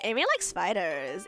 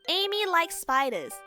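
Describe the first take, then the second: First: It is said in a put-on character voice. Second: It is said in the speaker's normal voice.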